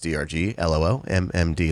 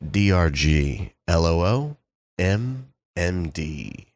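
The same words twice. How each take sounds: First: The letters are spelled out at normal speed. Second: The letters are spelled out more slowly.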